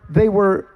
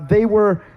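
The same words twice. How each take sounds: The two takes are said the same way.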